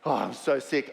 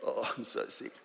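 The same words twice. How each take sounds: First: Said in the usual way. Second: Soft, breathy laughing whisper of a sick client. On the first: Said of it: "snot everywhere". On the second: Retold or imitated. Client confessing she's sick, in a laughing whisper. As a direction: mimic the sniffly client under a laugh.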